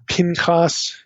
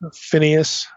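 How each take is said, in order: First: The name is said in its Hebrew form. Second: The name is said in its English form. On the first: "Pinchas in Hebrew" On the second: "that's the way most of us would pronounce this"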